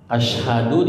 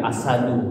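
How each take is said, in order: First: The middle consonant is an 'sh' sound. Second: The middle consonant is a plain 's' sound. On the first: It means to bear witness. The speaker calls it right. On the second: It means a lion. The speaker calls it wrong.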